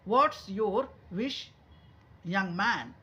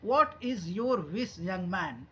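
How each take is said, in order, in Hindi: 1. 'What is' एक ही शब्द में संकुचित हो जाता है। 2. 'What is' को दो पूरे शब्दों के रूप में बोला जाता है। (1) "शॉर्ट में ही बोलेंगे" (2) "ऐसे भी बोल सकते हैं"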